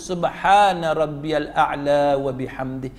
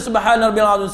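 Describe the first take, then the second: First: It is recited slowly, word by word. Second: It is recited quickly and run together.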